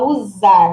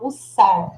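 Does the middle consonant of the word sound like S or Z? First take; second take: Z; S. First: The middle consonant is a buzzing Z sound. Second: The middle consonant is a hissing S sound. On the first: The speaker calls it wrong. "Você não vai falar usar" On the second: The speaker calls it right. "você vai falar usar, como se fosse sacola"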